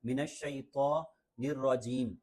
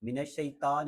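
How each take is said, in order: First: "الشیطان" with a heavy, rounded to; thick emphatic to. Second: Quick "الشیطان" with a thin ta; wrong t sound. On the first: Teacher models the correction, "الشیطان" with thick to. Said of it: "تو کو تھوڑا موٹا پڑھنا پڑتا ہے". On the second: Teacher shows learners the mistake, "الشیطان" with light t. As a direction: say "الشیطان" with a plain Urdu t. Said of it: "یعنی تا نہیں ہے". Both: Shown as a demonstration.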